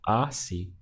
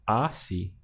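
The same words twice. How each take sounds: First: The stress is on the first syllable. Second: The stress is on the first syllable.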